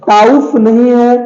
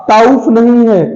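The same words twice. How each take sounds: Both takes have the same delivery.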